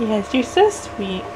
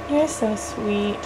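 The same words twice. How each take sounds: First: Tender. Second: Slow, much softer tender coo. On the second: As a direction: hush it down sweetly to the baby. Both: Acted. Mom cooing to baby.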